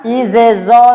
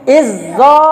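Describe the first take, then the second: First: Izezo with both z sounds kept apart; wrong reading. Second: Izzo with one doubled z; correct reading. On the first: Teacher shows the wrong way, izezo. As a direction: say izezo, sounding each z separately. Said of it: "tidak dibaca". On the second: Teacher models the correct merged izzo. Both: Shown as a demonstration.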